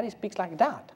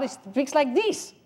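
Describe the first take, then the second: First: Lightly acted believer, fairly soft; understated know-it-all correcting someone; rival believer's claim. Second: High, put-on squabbling voice; mock one-upping, pitched way up; contradicting believer. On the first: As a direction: make a mock claim, keeping it contained. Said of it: "God doesn't speak like that". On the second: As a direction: counter the other believer in a raised voice. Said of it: "No, he don't speak like that".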